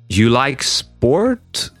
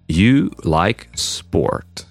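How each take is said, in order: First: The voice rises at the end. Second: The voice falls at the end. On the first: The speaker is asking. "Question, ... just by hearing that you change the intonation, would understand that it's a question" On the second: The speaker is stating a fact.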